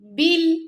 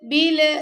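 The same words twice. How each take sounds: First: The final l is held steadily without echo. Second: The final l is released with a bouncing echo. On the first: The speaker calls it right. "पकड़ के रखेंगे लाम को" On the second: The speaker calls it wrong. "तो ये कलकला हो जाएगा"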